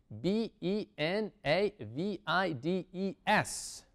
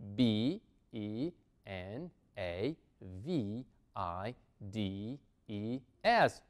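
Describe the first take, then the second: First: The letters are spelled at a fast pace. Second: The letters are spelled at a moderate pace. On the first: "Un poco más rápido" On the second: "pero un poquito más rápido"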